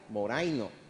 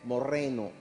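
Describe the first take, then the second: First: The middle vowel is said as 'ai'. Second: The middle vowel is said as 'e'. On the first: The speaker calls it wrong. "si nosotros lo pasamos al castellano, se escribiría o se pronunciaría moraino" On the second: The speaker calls it right. "en el griego la pronunciación correcta es morreno"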